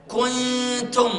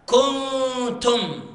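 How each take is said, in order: First: كنتم with the nun sounded clearly, not hidden; wrong, clear nun. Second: كنتم with the nun hidden and the ك rounded; slow, rounded كنتم with a hidden nun; correct ikhfa. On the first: Teacher imitating a student's common error. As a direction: say the nun in كنتم openly, as the mistake. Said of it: "هذا خطأ كبير". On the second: Teacher showing the class the correct version. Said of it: "هذا الكاف المضمومة". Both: Shown as a demonstration.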